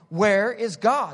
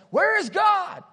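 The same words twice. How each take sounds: First: It is said more sternly and louder. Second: It is yelled very loudly.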